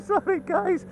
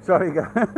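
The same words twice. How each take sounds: First: Sorry through a laugh; laughing apology. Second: Said in the usual way. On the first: Real, not acted.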